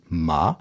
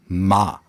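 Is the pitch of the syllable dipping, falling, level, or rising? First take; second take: dipping; falling. First: The pitch falls and then rises. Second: The pitch falls throughout. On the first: "ein fallender und wieder aufsteigender Laut" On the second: "der fallende Laut"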